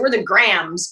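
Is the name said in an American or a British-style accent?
American. The name is said in an American accent. This is how people at home say the name. "we're from Jersey, so we're the Grahams"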